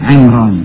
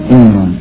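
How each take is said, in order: The two takes are said the same way.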